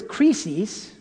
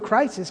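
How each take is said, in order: First: The word is pronounced the Greek way. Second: The word is pronounced the English way. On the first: "That's how you would pronounce it in Greek" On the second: "our word crisis"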